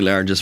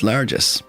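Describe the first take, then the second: First: It is said like 'largest', ending in a t. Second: It is said 'largesse', ending in an s. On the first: The speaker calls it wrong. "Did I say largest wrong?" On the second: The speaker calls it right. "It's pronounced largesse"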